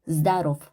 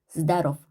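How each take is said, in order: Both takes have the same delivery.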